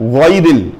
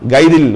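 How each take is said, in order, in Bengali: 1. প্রথম ধ্বনিটা গলার ভেতর থেকে আসে। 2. প্রথম ধ্বনিটা একটা সাধারণ, স্বাভাবিক g। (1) "গলার ভেতর থেকে আসতে হবে" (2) "গাইরিল বললে হবে না"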